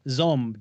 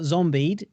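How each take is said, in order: First: The title is said as 'zombed'. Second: The title is said as 'zombied'. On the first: The speaker calls it right. "it's uh, zombed" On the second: The speaker calls it wrong. "it's not zombied"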